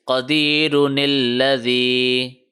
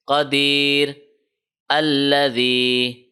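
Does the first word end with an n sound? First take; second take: yes; no. First: An n sound links the two words together. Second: No n sound; the words are read separately. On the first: The two verses are read as one continuous stretch. "If we decide to combine the previous verse with the next one, then this small noon will be read like this" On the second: The two verses are read separately. "if we decide to stop and not to continue and read the verses separately"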